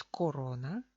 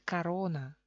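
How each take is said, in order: First: Corona as ko-RO-na, first o kept; official unreduced form. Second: Corona said as ka-RO-na; Russian-style corona with an a-like first vowel; reduced pronunciation. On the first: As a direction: corona pronounced as spelt, with a full o. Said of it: "oficialmente es corona". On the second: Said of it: "pero se pronuncia corona". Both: Shown as a demonstration.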